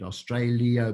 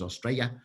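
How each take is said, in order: First: Every sound of the word is pronounced. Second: One sound of the word is left out.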